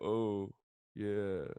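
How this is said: It sounds sad and heartbroken.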